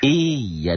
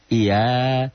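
First: The middle consonant is held long and doubled. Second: The middle consonant is short and single. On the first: The speaker calls it right. "iya double" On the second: The speaker calls it wrong. "Jangan iya"

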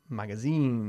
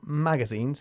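First: The stress is on the last syllable. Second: The stress is not on the last syllable. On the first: The speaker calls it right. "Enfatizamos la última sílaba" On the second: The speaker calls it wrong. "Not magazines"

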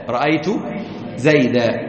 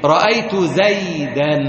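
First: The last word ends with a long a. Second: The last word ends with an n sound.

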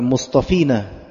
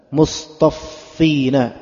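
First: The f sound is short, not doubled. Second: The f sound is doubled and held longer. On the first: The speaker calls it wrong. "Bukan mustafina" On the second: The speaker calls it right.

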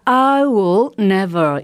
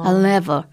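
First: The word will is said in full. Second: Will is contracted and barely heard.

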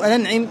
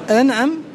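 First: The ain carries an 'i' vowel. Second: The ain carries an 'a' vowel. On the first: "أو بكسرها" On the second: "بفتح العين"

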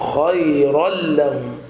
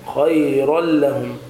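No difference in how they are said.

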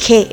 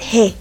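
First: The syllable starts with a hard sound. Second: The syllable starts with a soft sound. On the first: The speaker calls it wrong. "no es He" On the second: The speaker calls it right. "es He, es suave"

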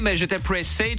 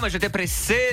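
First: It is spoken with a British English accent. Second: It is spoken with a plain French accent. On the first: The speaker calls it right. "c'est un britannique" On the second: The speaker calls it wrong. "Il parle pas comme ça"

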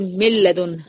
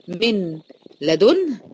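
First: The n is merged into the following l. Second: The n is pronounced clearly before the l. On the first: "دخلتي النون وادغمتيها جوه اللام" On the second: "شايفه من لا"

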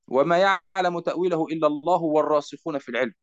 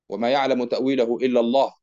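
First: The phrase runs on without a stop. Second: The reciter stops after the word Allah. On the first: God and those firm in knowledge know its interpretation. "أو يمكننا أن نقول" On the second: Only God knows its interpretation. "هل يكون هناك وقف ... ونقف هناك"

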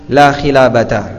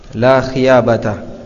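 First: The middle consonant is an L sound. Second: The middle consonant is a Y sound. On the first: "sebagai ganti dari huruf lam" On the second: "dia mengucapkannya dengan huruf ya sebagai ganti dari huruf lam"

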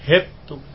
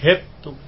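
First: The vowel is tilted toward an e sound. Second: The same.

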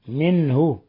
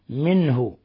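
No difference in how they are said.

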